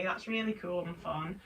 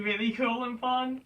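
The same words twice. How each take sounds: First: Dry, understated sarcasm; deadpan mock approval; sarcastic. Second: Said in the usual way. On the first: Real, not acted. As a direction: say it softly, not meaning it. Sarcastic take, then a sincere one.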